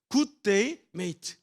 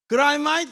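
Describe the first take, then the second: First: It is said with plain standard vowels. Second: It is said in a broad Australian accent.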